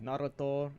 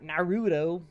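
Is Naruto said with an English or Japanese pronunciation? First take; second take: Japanese; English. First: It is pronounced in the Japanese way. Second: It is pronounced in an English way. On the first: The speaker calls it right. "you gotta say it correctly" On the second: The speaker calls it wrong. "not Naruto"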